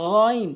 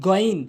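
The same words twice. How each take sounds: First: "গইন" with throaty gargled gh; correct pronunciation. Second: "গইন" with a hard plain g; wrong pronunciation. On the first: Teacher models the Arabic letter, gargled "গইন". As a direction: rasp the first sound of "গইন" from the throat. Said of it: "সঠিক উচ্চারণ হচ্ছে". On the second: Teacher shows learners the mistake, hard g "গইন". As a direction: say "গইন" with a stopped g. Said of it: "ভুল উচ্চারণ". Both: Shown as a demonstration.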